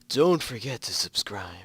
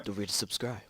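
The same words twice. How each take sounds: First: It is said in a put-on character voice. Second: It is said in an ordinary speaking voice.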